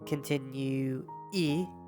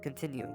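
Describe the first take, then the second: First: An extra E sound is added at the end. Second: It ends without any extra E sound. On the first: The speaker calls it wrong. "So you wouldn't say, like" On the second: The speaker calls it right. "you would just"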